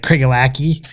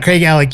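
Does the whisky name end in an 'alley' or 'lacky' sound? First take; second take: lacky; alley. First: The name ends with a hard 'lacky' sound. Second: The name ends with a soft 'alley' sound. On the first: The speaker calls it wrong. "Nailed it" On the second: The speaker calls it right. "is the way you really pronounce it"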